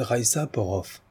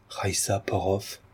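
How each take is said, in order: First: Said in the usual way. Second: Slow, soft murmur to oneself; Valérien repeating inwardly. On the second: A narrator's reading. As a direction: let the name sink in, hushed and drawn out. (répété tout bas, lentement, pour soi-même) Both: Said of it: "Valérien se répéta en lui-même".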